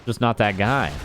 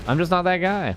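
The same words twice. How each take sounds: First: Said in the usual way. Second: Lilting Scandinavian accent, pitched up. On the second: Shown as a demonstration. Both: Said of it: "I'm not the best at accents".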